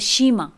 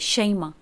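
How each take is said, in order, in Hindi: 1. पहला स्वर 'ee' है, ज़बर के बिना। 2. पहला स्वर 'ai' है, ज़बर के साथ।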